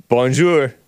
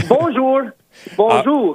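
First: Bonjour with English accent; bonjour, English-speaker French; foreign accent in french. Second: Bonjour said in French. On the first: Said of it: "English people trying to speak French". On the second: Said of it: "three words in French". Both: Shown as a demonstration.

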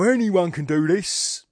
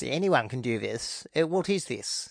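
First: Higher, slow working class scoff; a dismissive know-nothing at a painting; higher, slow mocking voice of an art philistine; stupid person. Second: Posh stupid person. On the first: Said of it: "whenever I play a stupid person". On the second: Retold or imitated. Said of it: "posh people are stupid too".

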